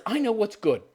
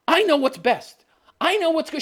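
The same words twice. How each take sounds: First: Said in the usual way. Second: Mock Daenerys. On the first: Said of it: "She says these exact words". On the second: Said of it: "She's like".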